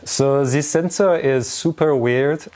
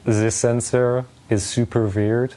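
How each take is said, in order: First: It is said in a put-on French accent. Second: It is said in the speaker's normal accent.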